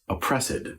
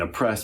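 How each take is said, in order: First: Oppressed is said with three syllables, op-press-ed. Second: Oppressed is said with two syllables, op-pressed.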